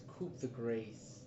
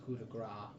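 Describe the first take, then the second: First: "coup de grace" said as koop-the-GRACE; literal pronunciation. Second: "coup de grace" said as koo-duh-GRAH; French-style pronunciation. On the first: Player offers wrong correction, "coup de grace" as koop-the-grace. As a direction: slowly, voice the p and rhyme grace with face. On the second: Player doubts how it's pronounced, says "coup de grace" as koo-duh-grah. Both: Shown as a demonstration. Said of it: "I think it's not pronounced".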